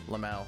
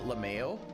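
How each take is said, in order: First: The word ends with an 'ow' sound. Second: The word ends sounding like 'mayo'. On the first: "It's just me saying out L M A O" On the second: "I just have the word mayo in my head"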